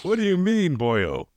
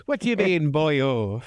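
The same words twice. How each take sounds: First: Exaggerated stage Irish accent, higher; hammed-up Irish brogue. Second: Lightly voiced stage Irish repeat; a hint of Irish brogue; Irish accent. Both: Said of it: "who's doing a fantastic Irish accent".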